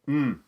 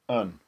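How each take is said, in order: First: It is reduced to a bare nasal mm. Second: It is reduced to a short weak un. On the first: "or even mm" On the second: "something more like un"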